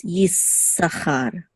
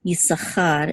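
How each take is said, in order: First: "Yisachar" with a long, doubled s; held S. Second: Said in the usual way. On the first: Shown as a demonstration. Teacher explaining a doubled letter, held S. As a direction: linger on the s in "Yisachar": yiss-sa-char. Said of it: "you hold it a little bit". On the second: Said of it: "so instead of".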